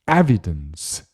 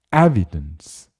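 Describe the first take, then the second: No difference in how they are said.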